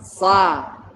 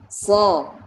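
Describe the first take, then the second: First: The syllable is thin with an open 'a'. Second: The syllable is heavy with a rounded 'o'. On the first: The speaker calls it wrong. "tidak keluar sa, tidak begitu" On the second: The speaker calls it right. "tapi so"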